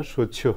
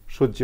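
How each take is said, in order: First: সহ্য said with j then aspirated jh, ending in o; correct pronunciation. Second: সহ্য said with a plain doubled j; the everyday wrong সহ্য, double j; wrong pronunciation. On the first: Teacher gives the correct সহ্য, jh ending in o. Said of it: "হবে". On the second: Teacher shows the wrong সহ্য, doubled j sound. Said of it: "হবে না". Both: Shown as a demonstration.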